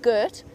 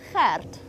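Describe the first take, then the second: First: It starts with a hard English G sound. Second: It starts with a throaty G and rolled R. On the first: The speaker calls it wrong. "we don't say it Gert" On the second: The speaker calls it right. "it's Gert. And you have to roll your R slightly"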